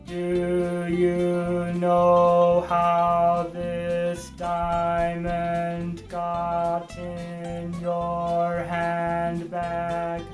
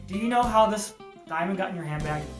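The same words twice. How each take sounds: First: Every syllable is even and on one pitch. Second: Syllable lengths and pitch vary like natural speech. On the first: The line is memorized without any meaning. "Every single syllable was the exact same length. ... on the exact same musical note. It never went up or down" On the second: The line comes out truthfully in the moment. "it could come out like"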